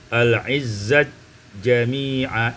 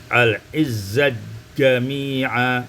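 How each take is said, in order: No difference in how they are said.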